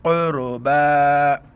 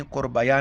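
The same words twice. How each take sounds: First: Slow, loud chanted "क़ुरबा" with a long final aa; stretched ending. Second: "क़ुरबया" with a spoken "ya" at the end; quick "क़ुरबया", ending on an added ya; mistaken reading. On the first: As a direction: hold the "बा" of "क़ुरबा", no ya after it. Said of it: "एक अलिफ की मिकदार ऊपर खींचना है". ("क़ुरबा" का बा खींचकर) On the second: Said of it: "क़ुरबया नहीं पढ़ेंगे". ("क़ुरबया" के अंत में या जोड़कर) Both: Shown as a demonstration.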